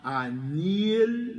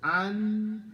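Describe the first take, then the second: First: The n is followed by an added i vowel. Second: The word ends abruptly on a stopped n. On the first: "an is going to become anil because you want to connect" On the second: "where you hear the stop"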